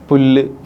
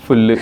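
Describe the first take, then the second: First: The word begins with a p sound. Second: The word begins with an f sound.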